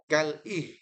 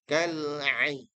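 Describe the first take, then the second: First: The syllable starts with a plain vowel onset. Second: The syllable starts with a throaty ayn sound. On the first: The speaker calls it wrong. "bukan kal ih" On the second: The speaker calls it right. "tapi ain"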